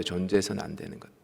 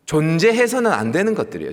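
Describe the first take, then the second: First: Much softer, lower and quick, 존재해서는 murmured; quiet echo. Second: Louder, pressing 존재해서는 hard; a preacher hammering 존재해서는 home; firm emphatic declaration. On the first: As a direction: let 존재해서는 안 되는 것들 drop to an aside. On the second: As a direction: proclaim 존재해서는 안 되는 것들이에요 with weight. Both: Shown as a demonstration.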